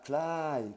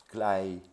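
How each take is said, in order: First: "klai" long, high and drawn out, meaning far. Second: "klai" short and falling, meaning near. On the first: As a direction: stretch "klai" up high and slow. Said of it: "qui veut dire loin". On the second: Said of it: "qui veut dire tout près". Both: Shown as a demonstration.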